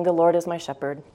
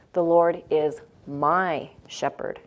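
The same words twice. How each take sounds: First: Said in the usual way. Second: Slow line with "my" set apart and stretched; stress on MY. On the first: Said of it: "then I started putting emphasis on different words". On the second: Shown as a demonstration. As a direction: linger on "my" as a personal discovery. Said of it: "putting emphasis on different words".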